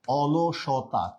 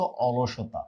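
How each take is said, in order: First: অলসতা drawn out very slowly, syllable by syllable; slow spelled-out word. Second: Said in the usual way. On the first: Shown as a demonstration. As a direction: stretch অলসতা out for the class to follow. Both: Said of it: "কি হচ্ছে বলেন তো".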